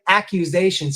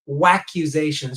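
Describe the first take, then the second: First: The word starts directly with a vowel sound. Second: The word starts with an added W sound. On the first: "instead of saying accusations" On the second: "he says waccusations"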